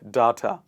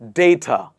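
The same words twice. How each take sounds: First: The first syllable sounds like 'dah'. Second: The first syllable sounds like 'day'. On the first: The speaker calls it wrong. "not data" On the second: The speaker calls it right. "It is day and ta"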